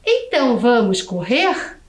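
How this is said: The voice rises at the end like a question. It asks whether to run. "E se eu quiser fazer esta mesma frase uma pergunta?"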